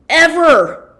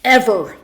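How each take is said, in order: First: "ever" pushed much higher and louder, falling at the end; emphatic ever. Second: Said in the usual way. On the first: Real, not acted. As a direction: throw all the weight onto "ever".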